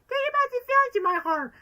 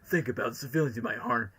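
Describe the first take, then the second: First: It is said in a little girl's voice. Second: It is said in Shadow's voice.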